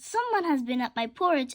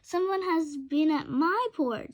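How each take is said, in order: First: The voice is small, high and little. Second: The voice is of medium pitch and size. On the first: "in his little small wee voice" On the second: "in her middle voice"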